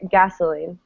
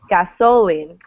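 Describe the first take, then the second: First: The stress is on the first syllable. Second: The stress is on the middle syllable. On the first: The speaker calls it right. "people all the time say" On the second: The speaker calls it wrong. "you would never say"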